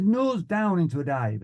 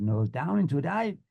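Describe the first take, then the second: First: Raised, firm flying order; instructor's command. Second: Questioning echo of an order; student's repeat. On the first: Flying instructor ordering a dive, instructor's command. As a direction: call it out, falling at the end. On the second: Student pilot answering the flying instructor, unsure repeat. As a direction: repeat it back with a rising end. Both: Retold or imitated.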